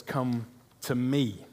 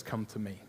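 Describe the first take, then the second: First: Drawn-out, unhurried "Come to me"; a slow, lingering invitation. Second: Hushed, gentle come to me; a quiet, tender invitation; soft invitation. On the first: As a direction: stretch "Come to me" slowly, letting each word land. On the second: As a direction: say "Come to me" almost under the breath. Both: Shown as a demonstration. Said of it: "Jesus's words said twice".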